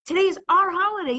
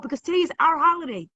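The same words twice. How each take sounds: First: Higher, louder, fast, with stress on "our"; "our" pushed high in an excited cry; emphatic repeat. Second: Fast, raised, declaring the holiday; lifted festive proclamation; excited declaration. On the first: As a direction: repeat it with more fire, leaning on "our". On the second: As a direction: announce it with joy, quickly. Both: Real, not acted.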